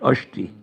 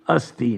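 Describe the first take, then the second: First: The middle consonant is an sh sound. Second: The middle consonant is a plain s sound. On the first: A Bengali regional pronunciation. The speaker calls it wrong. "not ashti" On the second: The standard pronunciation. The speaker calls it right. "It should be asti"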